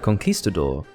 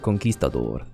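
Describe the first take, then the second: First: The word is said with an English accent. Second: The word is said with a Spanish accent. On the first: "when I say it with my accent" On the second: "their pronunciation would be closer to conquistador"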